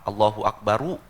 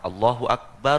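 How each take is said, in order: First: The final r is followed by a vowel. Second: The final r ends without any vowel. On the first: It is the first takbir, joined to the next. "Yang Allahu Akbar yang pertama di di apa namanya? Di fathah" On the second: It is the second takbir, where the phrase stops. "Allahu Akbar yang kedua di taskin, disukunkan"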